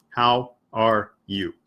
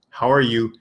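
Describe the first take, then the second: First: "How are you?" said slowly, each word apart; slow separate words. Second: "How are you?" run together fast into one sound; linked as one sound. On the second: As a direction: blur "How are you?" into a single chunk. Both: Shown as a demonstration. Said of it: "is one whole sound".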